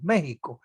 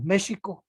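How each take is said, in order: First: The x is not said like English sh. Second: The x is said like an English sh. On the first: This is how we say it. "sino que decimos México" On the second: This is how it is said in Brazil. "no decimos México, como lo dicen en Brasil"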